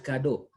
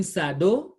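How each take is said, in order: First: KADO, opening on a K sound; KADO, first syllable "kah"; correct hard C. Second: SADO, opening on an S sound; SADO, first syllable "sah"; wrong soft C. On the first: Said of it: "but kado". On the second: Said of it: "Why are we not saying sado". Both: Shown as a demonstration.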